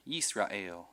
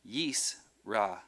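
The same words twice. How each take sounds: First: Said in the usual way. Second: "Yisrael" in separated syllables, Yis, ra, el; split by syllable. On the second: Shown as a demonstration. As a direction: pause between each syllable of "Yisrael". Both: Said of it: "indicates the end of a syllable".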